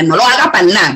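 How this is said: It is clipped, with syllables dropped, casually.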